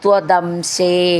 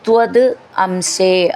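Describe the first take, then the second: First: The two words run together as one word. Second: The two words are said apart, unlinked.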